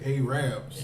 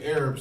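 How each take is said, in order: First: The word is said in a rural Southern pronunciation. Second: The word is said in a standard pronunciation. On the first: "they say Arabs" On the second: "They don't say Arabs"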